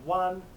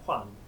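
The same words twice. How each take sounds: First: It starts with a plain W sound. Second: It starts with a breathy HW sound. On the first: The speaker calls it wrong. "so not Juan" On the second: The speaker calls it right. "but Juan"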